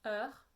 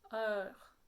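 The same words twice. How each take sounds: First: It is said with a France French accent. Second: It is said with a Quebec French accent. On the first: "En français" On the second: "En québécois"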